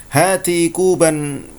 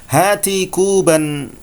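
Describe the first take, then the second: No difference in how they are said.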